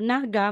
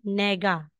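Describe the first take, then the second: First: The first vowel is an 'a' sound. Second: The first vowel is an 'e' sound. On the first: The speaker calls it wrong. "hindi po" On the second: The speaker calls it right.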